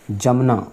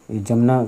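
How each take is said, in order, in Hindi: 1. यह शब्द 'j' ध्वनि से शुरू होता है। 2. यह शब्द 'j' ध्वनि से शुरू होता है।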